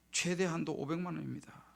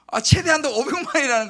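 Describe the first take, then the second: First: Softly quoted bank clerk; matter-of-fact clerk giving the verdict, rather softly; bank clerk's reply. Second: Loud, higher-pitched dismay; retelling the letdown at full volume; dismayed outburst. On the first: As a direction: quote the clerk quietly and evenly. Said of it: "아, 그러더라고". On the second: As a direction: blurt out the crushing news, loud and high. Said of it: "낙심이 확 드는 거예요". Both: Retold or imitated.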